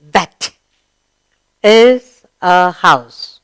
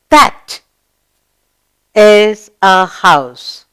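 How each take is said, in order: First: Very slow, word by word; slow read-along. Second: Very slow, word by word; slow model reading. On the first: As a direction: lead the class through it slowly. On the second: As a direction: drag each word so pupils can follow. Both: Shown as a demonstration. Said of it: "Read this with, with me".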